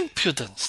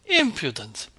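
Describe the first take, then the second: First: Scolding repeat. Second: Sharp, loud scolding cry; scolding outburst. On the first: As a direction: repeat the rebuke with less lift, still loud. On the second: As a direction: snap it out loud and higher, first hit. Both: A narrator's reading. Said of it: "the voice of Marva Kuzminitcha".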